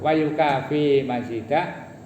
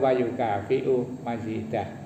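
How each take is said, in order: First: The verb ends on a plain 'fi' sound. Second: The verb ends with a glottal stop and 'u'. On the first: This is the reading common around Gresik and Jombang. "bisa dibaca yukafi" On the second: This is the reading common in Surabaya. "bisa dibaca yukafi'u"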